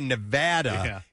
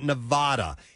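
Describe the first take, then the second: First: The name is said with the local pronunciation. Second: The name is said with an outsider's pronunciation. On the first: The speaker sounds like a local. The speaker calls it right. "Nevada is pronounced like that" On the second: The speaker sounds like someone from out of state. The speaker calls it wrong. "not Nevada"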